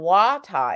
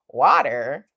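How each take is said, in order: First: The word ends on an open ah vowel. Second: The word ends with an American R sound. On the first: "without the R sound" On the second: "with my American R"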